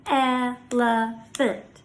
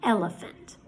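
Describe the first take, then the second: First: "Elephant" slowly in three even beats; pounded syllables. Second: Said in the usual way. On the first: Shown as a demonstration. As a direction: break "Elephant" into el, e, phant. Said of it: "by pounding out the syllables". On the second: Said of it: "Let's try another one".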